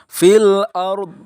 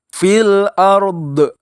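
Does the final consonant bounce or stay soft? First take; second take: soft; bounce. First: The final consonant is only hinted, without bounce. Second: The final consonant is released with a bounce. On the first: The speaker calls it right. "seharusnya dibaca fil ard" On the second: The speaker calls it wrong. "contoh yang salah fil ard, do-nya dipantulin"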